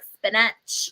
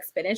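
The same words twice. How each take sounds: First: It is said in an obnoxious, exaggerated voice. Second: It is said in a normal voice.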